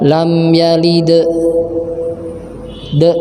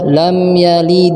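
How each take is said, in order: First: The final d is held with a trailing vowel. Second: The final d is released quickly without holding. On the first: The speaker calls it wrong. "Jangan dibaca lam yalid de" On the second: The speaker calls it right. "dilepaskan aja"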